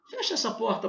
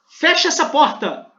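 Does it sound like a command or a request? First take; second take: request; command. First: It is said as a polite request. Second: It is said as a firm command. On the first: The listener is being asked a favor. "É um pedido" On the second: The listener is being ordered to act. "É uma ordem"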